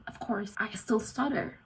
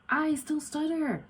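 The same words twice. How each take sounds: First: Said in the usual way. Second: High, slow "I still stutter" with "I" falling; mock stutter. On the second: Shown as a demonstration. Vlogger acting out her stutter, high and slow.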